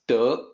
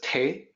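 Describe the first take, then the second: First: The word begins with a d sound. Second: The word begins with a t sound. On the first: The speaker calls it right. "it's De" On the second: The speaker calls it wrong. "people mispronounce as Te"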